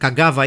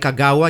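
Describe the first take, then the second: First: The middle consonant is a v sound. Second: The middle consonant is a w sound. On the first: This is the everyday way to say it. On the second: This is how educated people say it.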